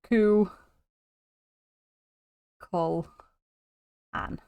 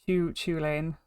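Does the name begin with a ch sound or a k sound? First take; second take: k; ch. First: The name starts with a k sound. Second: The name starts with a ch sound. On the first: The speaker calls it right. "That's how you pronounce it" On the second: The speaker calls it wrong. "it's not this. That's that. That's wrong"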